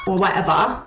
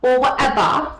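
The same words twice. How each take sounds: First: Mocking whatever; dismissive whatever, like Owl; imitating Owl. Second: Or whatever, louder and higher; louder mock Owl. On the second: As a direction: push the dismissive whatever. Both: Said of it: "He says things like that".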